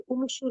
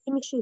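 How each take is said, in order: First: The word begins with a 'u' vowel. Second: The word begins with an 'i' vowel. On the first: The speaker calls it wrong. "उमशु नहीं कहेंगे" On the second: The speaker calls it right. "इमशु ही कहेंगे"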